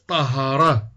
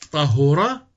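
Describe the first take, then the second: First: The middle consonant carries an a vowel. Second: The middle consonant carries a u vowel. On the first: The speaker calls it wrong. "وفتحها" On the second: The speaker calls it right. "بضم العين"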